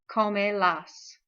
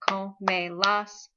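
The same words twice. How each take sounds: First: Said in the usual way. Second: "Come las" split into co, me, las; syllable by syllable. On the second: Shown as a demonstration. Teacher locating the accent mark, "Come las" syllable by syllable. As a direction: give each syllable of "Come las" its own beat. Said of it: "the O gets the accent mark".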